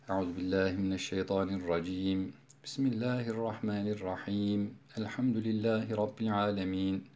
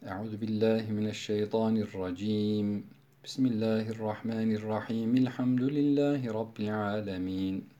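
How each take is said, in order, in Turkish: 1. Her ifadeden sonra durak var. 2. Yalnızca birinci ifadeden sonra durak var. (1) "Sure başındaki vecihler kat'ul küldü. Her bir arada nefes aldık" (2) "Kat'ul evvel vaslu sani yapıyorum"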